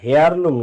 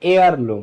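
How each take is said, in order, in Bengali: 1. এই শব্দটি হ ধ্বনি দিয়ে শুরু হয়। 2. শব্দটি স্বরধ্বনি দিয়ে শুরু হয়, হ নেই। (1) "হেয়ার লুম না" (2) "না এয়ার লুম"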